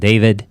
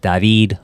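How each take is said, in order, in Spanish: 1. El nombre se pronuncia a la manera inglesa. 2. El nombre se pronuncia a la manera española.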